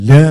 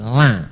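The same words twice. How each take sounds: First: The vowel is dark, not a clear open a. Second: The vowel is a clear open a. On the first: The speaker calls it wrong. "Jangan la" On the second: The speaker calls it right. "tapi la ... Lam fathah la mestinya"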